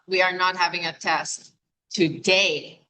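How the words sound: The word "today" is stressed. The test is on another day, not today. "which means not today, maybe tomorrow"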